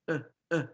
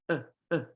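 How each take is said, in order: Both takes have the same delivery.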